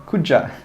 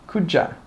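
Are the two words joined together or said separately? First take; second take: joined; joined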